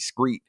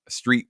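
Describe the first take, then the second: First: The word begins with an 'scr' sound. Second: The word begins with an 'str' sound. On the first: The speaker calls it wrong. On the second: The speaker calls it right.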